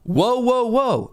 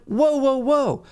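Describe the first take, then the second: First: High-pitched call after clearing the throat; attention-getting call. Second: High-pitched, mild "whoa" interruption; unheard interjection. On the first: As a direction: cut in to get heard. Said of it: "no one heard me. So I was like". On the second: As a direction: try to cut in, pitched up. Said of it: "no one heard me". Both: Retold or imitated.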